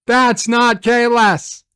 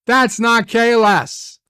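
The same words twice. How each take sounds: The two takes are said the same way.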